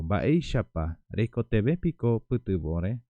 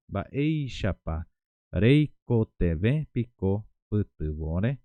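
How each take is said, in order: First: Said in the usual way. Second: "Baeishapa", then "reiko tebe piko putubore?" spoken very slowly with a rising end; slow, word by word. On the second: Shown as a demonstration. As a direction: spell each word out slowly for learners. (despacio, palabra por palabra) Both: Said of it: "Entonces digo".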